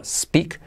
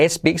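First: "speak" starting straight on a hissed S; clean initial S. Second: "speak" with an E before the S; added initial E. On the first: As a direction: begin "speak" on S, no E before it. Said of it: "S al principio". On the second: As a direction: wrongly begin "speak" as "espeak". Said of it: "no speak, sino speak". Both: Shown as a demonstration.

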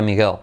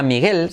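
First: Miguel with a dark final L; English-native Miguel. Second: Said in the usual way. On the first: Shown as a demonstration. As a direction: say Miguel as an English speaker would, L pulled back. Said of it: "como un nativo". (Miguel con la ele final inglesa) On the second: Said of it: "sería Miguel".

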